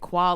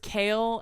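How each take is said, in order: First: The word starts with a kw sound. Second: The word starts with a plain k sound. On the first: The speaker calls it wrong. "he was pronouncing it quale" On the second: The speaker calls it right. "It's kale"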